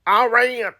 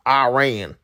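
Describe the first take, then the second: First: High, exaggerated American "Iran". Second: American "Iran", eye-RAIN. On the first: Playing up his American side, hammed-up American accent. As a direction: ham up "Iran" as an American eye-RAY-un. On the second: American saying it his country's way, American accent. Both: Shown as a demonstration. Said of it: "say it in the American way".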